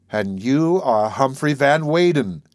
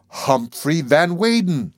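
First: Slow, awed and grave; solemn awe. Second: Slow, lingering on the name; slow conclusion. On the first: Maud gazing back at the narrator, solemn and awed. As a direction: hold each word with wonder. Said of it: "with equal solemnity and awe". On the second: Maud naming the narrator, slowly and wondering. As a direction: savour the name as it dawns. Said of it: "she concluded". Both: Acted.

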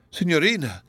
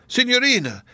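First: Pleading cry, raised; cried out. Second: Much higher, louder anguished cry; the name breaks high in panic; desperate cry. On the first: Donatello calling after Miriam, pleading cry. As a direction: call her name in desperate alarm. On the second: Donatello pleading with Miriam, higher anguished cry. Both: Acted. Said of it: "cried Donatello".

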